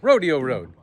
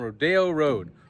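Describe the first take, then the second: First: Rodeo is said in a plain, ordinary way. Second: Rodeo is said in a fancy, LA-style way. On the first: The speaker calls it right. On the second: The speaker calls it wrong.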